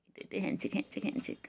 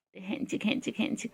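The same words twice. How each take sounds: First: Softer, breathless whisper of the word; whispered play. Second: Said in the usual way. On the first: Real, not acted. Whispered handshake game.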